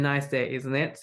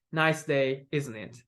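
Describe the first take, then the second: First: Rising intonation on isn't it; rising tag question. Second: Falling intonation on isn't it; falling tag question. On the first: Teacher contrasting two readings for students, second one rising on isn't it. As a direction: let isn't it tip upward at the end. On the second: Teacher contrasting two readings for students, first one falling on isn't it. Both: Shown as a demonstration. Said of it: "they have pretty different intonation".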